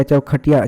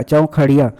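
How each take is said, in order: First: चौखटिया said with a hard retroflex ट sound; first reading. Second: चौखड़िया said with a flapped ड़ in the middle; corrected reading. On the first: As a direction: read it as चौखटिया, a clear ट in the middle. (चौखटिया में साफ़ ट की ध्वनि) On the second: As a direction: switch to चौखड़िया, tongue flicking the ड़. (चौखड़िया में ड़ की flap ध्वनि) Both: Shown as a demonstration. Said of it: "आपको देखना है प्रत्यय".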